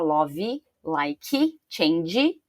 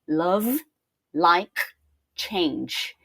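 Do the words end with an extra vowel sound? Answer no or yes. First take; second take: yes; no. First: Each word ends with an added vowel sound. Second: Each word ends cleanly on its final consonant. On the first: The speaker calls it wrong. "Então eu não vou falar" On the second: The speaker calls it right. "vou falar ... cortar nas consoantes"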